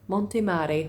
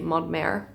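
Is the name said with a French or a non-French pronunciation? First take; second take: non-French; French. First: The name is said without a French pronunciation. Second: The name is said with a French pronunciation. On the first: The speaker calls it right. "but it's Montemare" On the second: The speaker calls it wrong. "we'd be pronouncing it in French"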